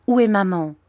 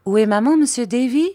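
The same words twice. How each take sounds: First: Slightly raised, falling question; worried child's demand; anxious question. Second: "maman" high and loud, "Davy" rising; high, loud rising repeat of "Où est maman"; echoed question. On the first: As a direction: ask anxiously for your mother. Child anxiously asks after mother. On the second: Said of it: "répéta Peggotty". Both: A narrator's reading.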